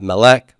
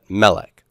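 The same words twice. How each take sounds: First: The stress is on the last syllable. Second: The stress is on the first syllable. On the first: The speaker calls it wrong. "not melech" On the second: The speaker calls it right. "this is a first syllable stress word"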